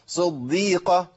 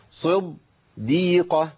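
First: "صديقة" slow with a light, thin doubled dal. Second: "صديقة" slow, the doubled dal made heavy like ḍad; wrong emphatic dal. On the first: Teacher giving the right version: light dal. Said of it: "دال مرققة وجميلة جدًا". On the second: Teacher showing a mistake to catch: heavy dal. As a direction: make the dal in "صديقة" thick. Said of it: "أنا عملت إيه كده". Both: Shown as a demonstration.

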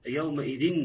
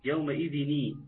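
First: يومئذ ending flat, with no ني added; wrong reading. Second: يومئذ ني with a clear kasra ني joined on; correct linking ni. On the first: Teacher demonstrates the wrong form of يومئذ, with no ني. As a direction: drop the linking ني at the end of يومئذ. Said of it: "لا، مش كده". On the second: Teacher shows students the correct يومئذ ني, joined with a kasra. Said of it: "ني، نون مكسورة". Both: Shown as a demonstration.

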